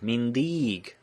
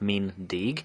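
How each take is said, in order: First: The second vowel is long. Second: The second vowel is short. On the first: "if you want to be a proper Hungarian, you have to pronounce the second one long" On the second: "you have to use the short E, like as with the dot, in both cases"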